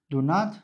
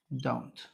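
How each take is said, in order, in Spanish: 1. Se dicen dos palabras completas por separado. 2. Se unen rápido en una sílaba corta.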